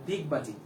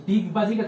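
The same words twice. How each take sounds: First: দিগবাজি with a dental d in place of ড; soft d sound. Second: Said in the usual way. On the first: Shown as a demonstration. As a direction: say দিগবাজি starting with দ, tongue on the teeth. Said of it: "ড কে দর মতো উচ্চারণ করবা". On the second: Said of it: "তুমি উচ্চারণ করবা হচ্ছে".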